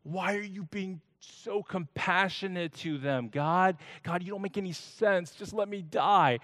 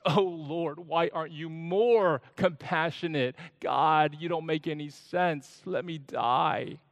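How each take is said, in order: First: Higher, exasperated whine at God; disgusted complaint. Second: Slightly higher, whining gripe; complaining. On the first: Jonah scolds God for mercy to the Ninevites, disgusted. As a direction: sound fed up and disgusted. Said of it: "Jonah is disgusted". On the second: Jonah complains to God about the scorching, mildly whiny. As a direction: moan about it, sulking. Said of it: "And now he complains". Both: Acted.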